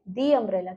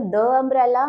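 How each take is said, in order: First: "the" said "dee" before "umbrella"; long ee in "the", running into "umbrella". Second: "the" said "duh" before "umbrella"; short schwa in "the", then "umbrella"; wrong "the" as duh. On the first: Teacher giving students the correct form, "the" as "dee". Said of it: "क्या बोलेंगे". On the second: Teacher showing students what not to say, "the" as "duh". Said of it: "the umbrella नहीं बोलेंगे हम". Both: Shown as a demonstration.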